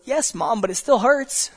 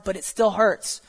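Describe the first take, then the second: First: Put-on higher, plaintive little-kid voice on still; child telling her mom it still hurts, lightly voiced. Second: Said in the usual way. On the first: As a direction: whine it like a child with a skinned knee. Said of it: "the child goes". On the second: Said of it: "we often respond".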